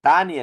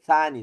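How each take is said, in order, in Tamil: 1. சொல் சாதாரண 't' ஒலியில் தொடங்குகிறது. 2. சொல் மென்மையான 'th' ஒலியில் தொடங்குகிறது. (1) "தானி அல்ல" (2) "அது அசல் சானி தான் அது"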